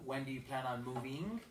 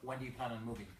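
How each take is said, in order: First: The pitch rises at the end of the question. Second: The pitch falls at the end of the question. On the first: The speaker sounds unsure. The speaker calls it wrong. "it sounds doubtful" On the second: The speaker sounds confident and authoritative. The speaker calls it right. "when you ask the question direct"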